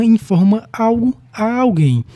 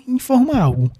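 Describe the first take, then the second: First: Alguém lifted and drawn out at the end; teacher stressing the indirect object "alguém". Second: "informa" said higher and punched; teacher stressing the verb "informa". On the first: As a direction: lean on "alguém" as the key word. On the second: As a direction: hit "informa", let "algo" fall. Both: Shown as a demonstration.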